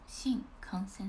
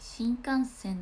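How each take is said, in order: First: It has the pitch accent of the film title. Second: It has the pitch accent of the train word. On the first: It names the zombie film. The speaker calls it right. "イントネーション新幹線っていう映画" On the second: It names the bullet train. The speaker calls it wrong. "新幹線って言ったらそのあれになっちゃうね"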